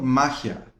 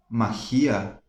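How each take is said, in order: First: Magia as MA-gia, stress on the first syllable; correctly stressed magia. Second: Magia with the stress on the I, ma-GI-a, low and drawn out; wrongly stressed magia. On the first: Teacher giving the version that sounds right, first-syllable stress. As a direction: land on MA and let gia fall away. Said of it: "não fica muito bem, né? Então". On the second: Teacher trying how the word sounds, stress on the I. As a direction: test out magia slowly as three syllables, stressing GI. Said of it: "não fica muito bem". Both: Shown as a demonstration.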